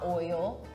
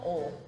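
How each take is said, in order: First: The word is said as two syllables, with the I. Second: The word is said as one syllable, without the I. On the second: "they'll drop the I, make it one syllable"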